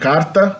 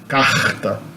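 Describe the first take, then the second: First: The R is made with the tongue. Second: The R sounds like an H. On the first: "I would say carta, because I'm from São Paulo" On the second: "Rio de Janeiro and northeastern Brazilians would say carta"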